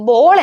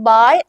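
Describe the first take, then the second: First: ബോൾ with a rounded o sound, like English ball; English ball pronunciation. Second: ബാൾ with an open a sound, like baal; German Ball pronunciation. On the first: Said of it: "ഇംഗ്ലീഷിൽ ബോൾ എന്നുമാണ്". (ബോൾ English ഉച്ചാരണത്തിൽ, ഒ ശബ്ദത്തോടെ) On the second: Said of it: "ഇവിടെ നിങ്ങൾ ശ്രദ്ധിക്കുക, ജർമ്മനിൽ ബാൾ എന്നും". (ബാൾ German ഉച്ചാരണത്തിൽ, നീണ്ട ആ ശബ്ദത്തോടെ) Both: Shown as a demonstration.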